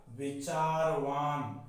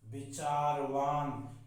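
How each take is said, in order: Both takes have the same delivery.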